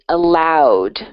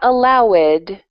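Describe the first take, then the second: First: The ending is a plain d sound. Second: The ending is said as an extra syllable. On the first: The speaker calls it right. "say the verb, allow, and then D at the end" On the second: The speaker calls it wrong.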